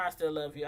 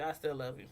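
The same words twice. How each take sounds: First: Tender declaration. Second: Soft whisper of love. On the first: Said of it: "[name], I still love you". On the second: To [name], repeating it softly and fondly. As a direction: lower and softer, a tender aside. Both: Real, not acted.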